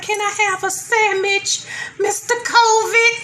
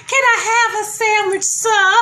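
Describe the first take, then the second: First: High, slowed, timid begging; a higher, pleading voice asking covid for a sandwich. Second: High, timid begging squeak; a higher, pleading voice asking for a sandwich. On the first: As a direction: ask meekly and drawn out, high. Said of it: "It's like". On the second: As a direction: beg politely in a small high voice. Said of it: "I was like". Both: Retold or imitated.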